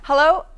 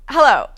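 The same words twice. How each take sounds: The two takes are said the same way.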